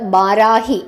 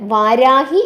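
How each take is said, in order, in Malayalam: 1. ഈ പേര് b ശബ്ദത്തിലാണ് തുടങ്ങുന്നത്. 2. ഈ പേര് v ശബ്ദത്തിലാണ് തുടങ്ങുന്നത്. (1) "ബ എന്നാണ് ഉച്ചരിക്കുന്നത്" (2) "വാരാഹി എന്നല്ല പറയുന്നത്"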